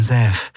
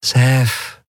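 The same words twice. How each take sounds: First: Put-on gently coaxing an old acquaintance; gentle. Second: Higher, syrupy coaxing; sugary sweet. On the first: Woman coaxing an armed old acquaintance, gently. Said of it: "sagte sie sanft". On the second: Woman warning the man holding her at gunpoint, sugary sweet. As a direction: say the name with sweet menace. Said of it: "sagte sie zuckersüß". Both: A narrator's reading.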